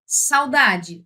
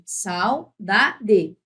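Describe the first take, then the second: First: Said in the usual way. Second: "Saudade" em três pedaços separados; sílaba por sílaba. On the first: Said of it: "É assim". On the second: Shown as a demonstration. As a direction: separe "Sau-da-de", marcando o "da". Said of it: "Essa é a tônica". ("Saudade" dito pausadamente)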